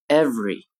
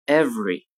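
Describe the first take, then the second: The two takes are said the same way.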